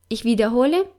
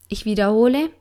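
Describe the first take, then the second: The two takes are said the same way.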